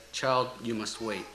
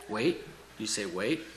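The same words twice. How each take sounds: First: Gentle. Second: Understated indignant question, rising on wait. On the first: Master answering a pleading child in a poem, gentle. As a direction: let it settle gently on the last word. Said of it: "the master so gently said". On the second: Praying believer questioning the master's answer, mildly indignant. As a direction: question it with quiet indignation, voice lifting at each end. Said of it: "my indignant reply". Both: A narrator's reading.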